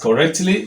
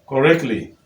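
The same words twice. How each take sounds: First: The T sound before 'ly' is clearly pronounced. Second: The T sound before 'ly' is left out. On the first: The speaker calls it wrong. "If you were to pronounce it as correctly, you will have problem" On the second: The speaker calls it right. "simply take away the sound that is represented by that T"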